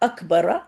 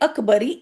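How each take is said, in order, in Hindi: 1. शब्द छोटे 'a' स्वर से खत्म होता है। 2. शब्द 'ee' स्वर से खत्म होता है। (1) "यानी हालत जर में भी र पे जबर ही होगी" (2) "आपने कभी भी अकबरी ऐसे नहीं पढ़ा होगा।"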